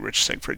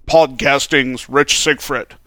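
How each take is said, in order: First: It is said in a plain, normal voice. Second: It is said in a booming radio DJ voice.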